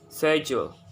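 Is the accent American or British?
British. It is said in a British accent.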